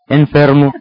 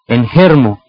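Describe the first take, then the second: First: The F is pronounced as a clear F sound. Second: The F is replaced by a different sound. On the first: The speaker calls it right. "en realidad es enfermo" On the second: The speaker calls it wrong. "dicen enfermo"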